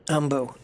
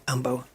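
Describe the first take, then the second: No difference in how they are said.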